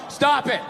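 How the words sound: It is said in a flat, serious way.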